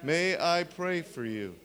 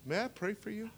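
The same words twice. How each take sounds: First: "May I pray for you?" said slowly, every word given its weight; slow teaching demo. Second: "may I pray for you?" said softly and kindly, pitch lifted; soft, caring ask to a limping man; gentle offer. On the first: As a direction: spell the phrase out for them to learn. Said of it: "those five words I taught you". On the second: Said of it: "you go to him and you say". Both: Shown as a demonstration.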